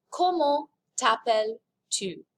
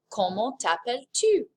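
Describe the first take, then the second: First: "Comment t'appelles-tu?" spelled out slowly, word by word; slow model phrase. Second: Said in the usual way. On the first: Shown as a demonstration. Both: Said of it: "Here's how to ask".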